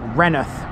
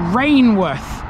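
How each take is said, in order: First: It is said shortened, like 'renneth'. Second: It is said as spelled, 'rain-worth'. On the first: The speaker calls it right. "It's called Renneth" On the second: The speaker calls it wrong. "a lot of people would think is called"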